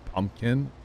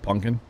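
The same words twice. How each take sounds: First: It has a standard, general pronunciation. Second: It has a local Missouri pronunciation. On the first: This is the form adopted after being teased. The speaker calls it right. "now I say pumpkin" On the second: This is the old local way of saying it. The speaker calls it wrong. "instead of pumpkin"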